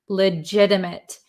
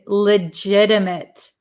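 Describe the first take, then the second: The two takes are said the same way.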